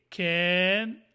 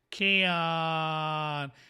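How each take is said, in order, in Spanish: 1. La vocal suena como una 'e'. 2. La vocal es una 'a' abierta exagerada. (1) "una segunda pronunciación que es can, como una E" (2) "estoy exagerando el sonido... estoy pronunciando el sonido corto de la A"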